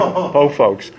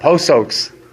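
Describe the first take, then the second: First: The second word starts with an F sound. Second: The second word starts with an S sound. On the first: The speaker calls it right. "She could never say Po Folks" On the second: The speaker calls it wrong. "My thirty-year-old daughter used to say Po Soaks"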